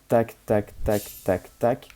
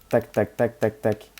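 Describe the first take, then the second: First: The syllables come at a slower, even rhythm. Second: The syllables come at a quicker, tighter rhythm. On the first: This is the attack rhythm without the charm. "J'ai un rythme comme ça" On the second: This is the attack rhythm with the charm equipped. "ça permet juste de taper vite"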